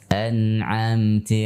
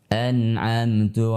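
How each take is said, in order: First: The final vowel sounds like i. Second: The final vowel sounds like u. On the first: "ti menyerupai kasrah" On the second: "bibirnya sedikit dimonyongkan sehingga menyerupai dhammah"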